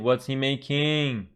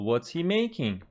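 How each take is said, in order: First: The voice rises at the end. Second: The voice falls at the end. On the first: The speaker calls it wrong. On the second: The speaker calls it right.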